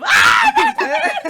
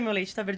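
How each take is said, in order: First: It is shouted in panic. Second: It is said calmly and flatly.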